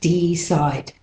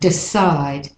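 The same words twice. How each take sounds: First: The first vowel is a full E. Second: The first vowel is a reduced schwa. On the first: The speaker calls it wrong. "not decide" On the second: The speaker calls it right. "the E can be more like a schwa"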